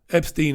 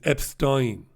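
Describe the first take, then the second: First: The ending sounds like 'steen'. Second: The ending sounds like 'stine'.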